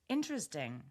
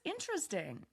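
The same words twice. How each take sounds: First: The word sounds flat, careful and skeptical. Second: The word sounds positive, curious and engaged. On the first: The speaker may disagree or be unsure. "Careful, unsure, maybe skeptical. The tone is more flat" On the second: The speaker genuinely finds it interesting. "It's positive, curious, engaged"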